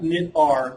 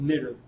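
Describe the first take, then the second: First: It ends with the letter name R. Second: It ends with a short 'er' sound. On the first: The speaker calls it wrong. "It's not knit-R" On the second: The speaker calls it right. "but it's actually called knitter"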